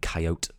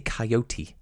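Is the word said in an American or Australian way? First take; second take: American; Australian. First: Coyote is said the American way. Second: Coyote is said the Australian way.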